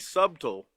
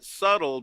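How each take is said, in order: First: The b sound is clearly pronounced. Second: The b sound is silent. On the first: The speaker calls it right. "but actually it should be subtle" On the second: The speaker calls it wrong. "they pronounce it subtle"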